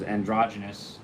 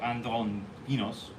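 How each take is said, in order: First: It is said the English way, ending in -ous. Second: It is said the Hebrew way, ending in -os. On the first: "we pronounce it as androgynous in sort of the Anglicized version of it" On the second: "as it's written"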